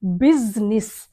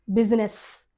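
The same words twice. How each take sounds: First: బిజినెస్ as two syllables, biz-nis with a z; correct pronunciation. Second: బిజినెస్ with a j sound, three syllables; common wrong pronunciation. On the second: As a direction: say బిజినెస్ as bi-ji-ness. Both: Shown as a demonstration. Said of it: "అది బిజినెస్ కాదు".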